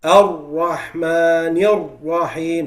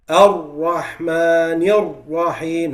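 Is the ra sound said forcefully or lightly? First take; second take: forcefully; forcefully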